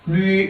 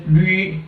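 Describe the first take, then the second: First: The vowel mixes oo with an ee sound. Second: The vowel mixes oo with an ee sound.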